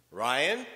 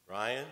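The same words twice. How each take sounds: First: Put-on sharp, louder call of a child's name; fed-up mother calling out Ryan; stern warning. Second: Mother hugging her son, tenderly. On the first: Mother snapping at misbehaving son. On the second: Retold or imitated. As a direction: say his name to calm him. Mother pulls son close.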